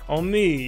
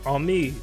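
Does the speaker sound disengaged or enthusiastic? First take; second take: enthusiastic; disengaged. First: It is said brightly, with apparent enthusiasm. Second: It is said flatly, without any enthusiasm. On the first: The speaker seems interested in the conversation. "I sound engaged either which way" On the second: The speaker is not interested in the conversation. "some nights I just don't feel it, and I'd be like"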